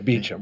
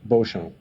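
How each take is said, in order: First: The name sounds like beecham, not bo-shom. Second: The name sounds like bo-shom, not beecham.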